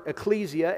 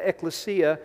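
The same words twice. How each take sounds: First: Ecclesia said "ih-KLEE-zee-uh"; ecclesia with stressed KLEE and a z sound; first pronunciation. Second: Ecclesia said "ek-luh-SEE-uh"; ecclesia with stressed SEE and an s sound; second pronunciation. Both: Shown as a demonstration. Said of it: "pronounced two different ways".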